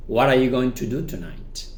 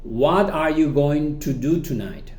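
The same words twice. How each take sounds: First: "What are you" linked with a tapped t; quicker, connected "What are you"; reduced pronunciation. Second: "What are you going to" slow and separated; slow, unreduced model question with clear "What"; full careful form. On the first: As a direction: run "What are you going to" together. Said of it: "Cuando lo reducimos, decimos". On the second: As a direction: enunciate each word of "What are you". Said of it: "repasamos de nuevo". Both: Shown as a demonstration.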